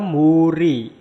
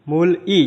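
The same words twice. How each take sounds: First: Muri said joined, the l turned to r; linked pronunciation. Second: Mul-i said split apart; separate syllables. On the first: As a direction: run it together as muri. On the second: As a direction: break it as mul, i. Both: Shown as a demonstration. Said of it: "jadinya muri".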